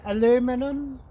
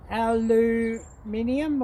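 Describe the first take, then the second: First: It is said in a non-Australian accent. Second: It is said in an Australian accent. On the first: This is the speaker's own way of saying it. "I say aluminum" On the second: This is how people locally say it. "or whatever they call it"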